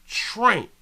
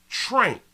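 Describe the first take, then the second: The two takes are said the same way.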